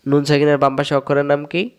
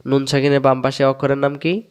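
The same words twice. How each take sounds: The two takes are said the same way.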